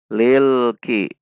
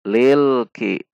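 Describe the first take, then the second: No difference in how they are said.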